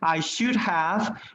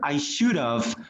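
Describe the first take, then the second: First: The words are said slowly and in full. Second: The words are said quickly and contracted.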